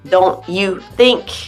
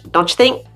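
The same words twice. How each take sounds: First: Each word is said clearly and separately. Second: The words are reduced and run together.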